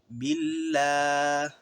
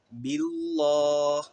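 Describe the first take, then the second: First: The L sound is released and light. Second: The L sound is held and heavy. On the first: The speaker calls it right. "tetapi billah, billah. Lepas" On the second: The speaker calls it wrong. "bukan billah"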